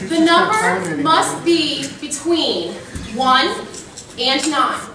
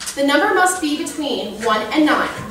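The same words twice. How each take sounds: First: It is read at a slower pace. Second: It is read at a faster pace.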